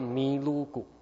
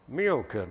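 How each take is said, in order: First: It is said in a Japanese loanword style. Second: It is said in plain English.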